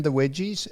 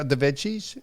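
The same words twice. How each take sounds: First: "wedgies" with a W for veggies. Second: Said in the usual way. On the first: Retold or imitated. He tells what he ended up having, "wedgies" with W. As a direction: slip into saying "wedgies" for veggies. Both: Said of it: "uh, the veggies".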